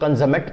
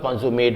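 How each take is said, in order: First: It is said with the adjective pronunciation. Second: It is said with the verb pronunciation. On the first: The word describes something as complete or perfect. "Adjective होगा तो कंजमेट पढ़ेंगे" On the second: The word names the act of completing something. "Verb होगा तो कंज्यूमेट बोलेंगे"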